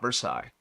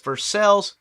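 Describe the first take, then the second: First: It is pronounced the usual non-Kentucky way. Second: It is pronounced the local Kentucky way. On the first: This is how the name is said elsewhere. "not Versailles" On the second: This is how the local town name is said. "I live in Kentucky, where it's Versailles"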